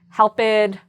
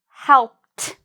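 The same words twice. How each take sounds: First: The ending is pronounced as an extra syllable. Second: The ending is a short, strong t sound. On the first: The speaker calls it wrong. "I did not say" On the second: The speaker calls it right. "I just made that strong t sound"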